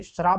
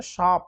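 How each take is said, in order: First: श्राप with r after "sh"; श्राप said as SHRAAP; wrong extra r. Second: शाप with plain "sh" and long aa; correct, without r. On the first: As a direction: roll श and र together in श्राप. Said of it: "श्राप भी नहीं होता". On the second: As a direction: drop any r from शाप. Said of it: "शाप होता है". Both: Shown as a demonstration.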